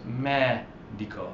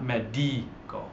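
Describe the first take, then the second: First: Medico slowly as "MEH-dee-ko"; stress on ME. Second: Medico slowly as "meh-DEE-ko"; incorrect stress on DI. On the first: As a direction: set ME apart at the start of medico. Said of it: "It's on the third to last". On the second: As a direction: stretch the middle syllable of medico. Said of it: "incorrect pronunciation". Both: Shown as a demonstration.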